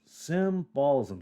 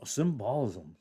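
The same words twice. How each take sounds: First: "symbolism" drawn out slowly, SIM-bolism; slow, deliberate retry of "symbolism"; careful sounding-out. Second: Said in the usual way. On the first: Real, not acted. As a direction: stretch "symbolism" to half speed, syllable by syllable. Careful retry of misread word.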